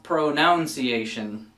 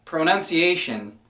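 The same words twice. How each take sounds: First: Pronunciation said pro-NOUN-see-ay-shun, slow; pronunciation with noun in the middle; wrong pronunciation, slowly. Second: Pronunciation said pro-NUN-see-ay-shun; Pronunciation with nun, not noun; correct pronunciation. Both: Shown as a demonstration. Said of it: "not pronunciation".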